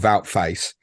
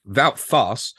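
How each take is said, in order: First: The surname sounds like the word 'face'. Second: The surname sounds like the word 'farce'. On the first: The speaker calls it wrong. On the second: The speaker calls it right.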